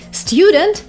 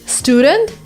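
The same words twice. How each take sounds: First: The first syllable has a 'yoo' sound. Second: The first syllable has a plain 'oo' sound. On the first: This is the British way of saying it. "instead of saying student, it's kind of British" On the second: This is the American way of saying it. "Student is what people say in the U S"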